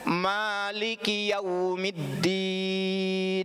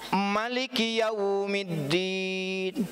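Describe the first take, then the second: First: The vowel after the m is long. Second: The vowel after the m is short. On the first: "Boleh emaknya panjang" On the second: "boleh emaknya pendek"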